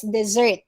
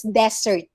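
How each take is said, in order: First: "dessert" as di-ZERT; Z sound and second-syllable stress in "dessert"; double-S word. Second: "desert" as DEZ-ert; single-S word. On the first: Teacher contrasting two spellings, di-ZERT. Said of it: "if it has double S". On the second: Teacher contrasting two spellings, DEZ-ert. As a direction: stress the first syllable of "desert". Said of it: "If it has single S". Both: Shown as a demonstration.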